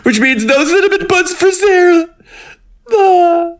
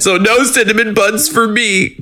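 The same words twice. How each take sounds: First: Squeaky high whine of mock grief; mock lament. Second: High, whiny mock sorrow; mock lament. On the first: Host mourning no buns for her co-host, squeaky mock wail. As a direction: wail it in a tiny high voice for Sarah's sake. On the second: Podcaster whining about missing cinnamon buns, high mock sadness. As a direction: pout over the lost buns, pitched way up. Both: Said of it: "mock lament".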